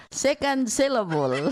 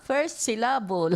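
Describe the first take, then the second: First: Second said louder, with stress landing on the second syllable; louder playful stress test. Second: First with stress on the first syllable, said with a laugh; laughing test of stress on first syllable. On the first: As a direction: push the weight onto Second, rising. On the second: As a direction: lean on the start of syllable. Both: Shown as a demonstration. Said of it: "First syllable or second syllable?".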